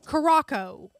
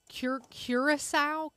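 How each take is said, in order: First: The name is said in a clipped form. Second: The name is said in its full form. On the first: "Jason says it Caraco" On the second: "I'm going to say it wrong"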